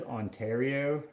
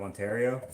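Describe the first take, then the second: First: "Ontario" with his odd Canadian ending; "Ontario" said in an exaggerated regional way; grandfather's Ontario. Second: Said in the usual way. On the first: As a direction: imitate a grandfather's quirky "Ontario". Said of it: "He even says Ontario instead of Ontario". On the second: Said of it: "instead of Ontario".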